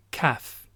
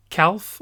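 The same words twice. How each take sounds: First: "calf" as kaf, slow, no L; right pronunciation. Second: "calf" with the L sounded, kalf; wrong pronunciation. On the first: Teacher correcting, says "calf" slowly as kaf. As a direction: model "calf" slowly without the L. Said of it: "on dit". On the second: Teacher showing the error, pronounces L in "calf". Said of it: "on dit pas". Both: Shown as a demonstration.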